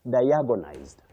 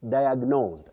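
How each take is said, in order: First: It has four syllables, with a vowel after g. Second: It has three syllables, with no vowel after g. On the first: The speaker calls it wrong. "So diagonized is not in English" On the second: The speaker calls it right. "It is diagnose, to diagnose or diagnosed"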